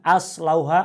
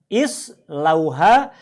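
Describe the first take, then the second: First: The word begins with an a vowel. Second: The word begins with an i vowel. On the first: The speaker calls it wrong. "bukan as lauha" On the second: The speaker calls it right. "dengan bunyi I"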